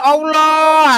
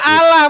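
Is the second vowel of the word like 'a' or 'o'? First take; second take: o; a. First: The second vowel sounds like 'o'. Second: The second vowel sounds like 'a'. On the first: The speaker calls it wrong. "bukan Allah" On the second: The speaker calls it right. "Ini dibaca Allah, Bang"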